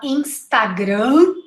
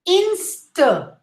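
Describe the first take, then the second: First: Instagram with a full "ah" in the middle; Instagram with open, unreduced A vowels; wrong pronunciation. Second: Instagram with a schwa middle; correct pronunciation. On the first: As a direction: mispronounce Instagram as in-stah-grahm. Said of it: "not Instagram". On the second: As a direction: say Instagram as IN-stuh-gram. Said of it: "the first A is the schwa". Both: Shown as a demonstration.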